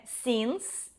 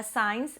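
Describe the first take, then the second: First: Since with a clear N, SINS; correct pronunciation. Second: Signs said like sines, with no N sound; wrong pronunciation. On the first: Teacher giving the right form, since with a clear N. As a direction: say since with a crisp S at the end. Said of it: "é since". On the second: Teacher showing the Brazilian mistake, signs like sines. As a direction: mispronounce signs as sines, the common error. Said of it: "mas não é signs". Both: Shown as a demonstration.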